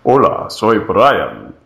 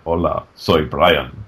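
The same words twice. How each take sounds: First: Manly Spanish voice. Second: Lower, slow macho Brian; manly Spanish voice. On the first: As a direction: say it like a macho Spanish hero. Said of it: "Brian's voice was like". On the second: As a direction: say it like a suave Spanish hero. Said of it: "a guy with glasses who walks around like". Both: Retold or imitated.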